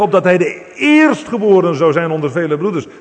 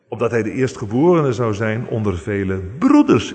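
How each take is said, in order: First: The strongest stress falls on "eerstgeborene". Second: The strongest stress falls on "broeders". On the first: The stress is on his being the first. "Zo kun je daar de volle klemtoon op leggen" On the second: The stress is on his being among many brothers. "En daar de klemtoon op leggen"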